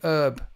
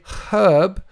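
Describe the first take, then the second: First: The word begins without an h sound. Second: The word begins with an h sound. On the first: The speaker calls it wrong. "like the Americans saying herb. It's got a H in it" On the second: The speaker calls it right. "We say herb"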